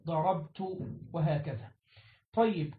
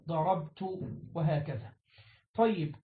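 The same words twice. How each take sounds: The two takes are said the same way.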